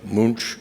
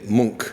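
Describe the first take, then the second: First: The name is said with another anglicized pronunciation. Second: The name is said with the Norwegian pronunciation. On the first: The speaker calls it wrong. "or Munch" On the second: The speaker calls it right. "but the Norwegians say Munch"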